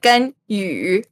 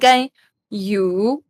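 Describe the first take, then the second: First: The final vowel is a fronted ü sound. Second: The final vowel is a plain u sound. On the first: The speaker calls it right. "it's like "Genyu." ... There's a little bit of, like" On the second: The speaker calls it wrong. "instead of saying "Genyu,""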